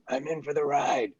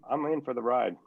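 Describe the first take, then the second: First: The voice is rough and raspy. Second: The voice is smooth and normal.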